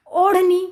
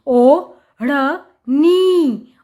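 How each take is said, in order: First: Said in the usual way. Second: ओ, ढ़, नी slow and separate; sounding out. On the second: Shown as a demonstration. Teacher showing how it is written, sound by sound. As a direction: split it with pauses: ओ... ढ़... नी. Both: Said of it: "अब ओढ़नी कैसे लिखते हैं".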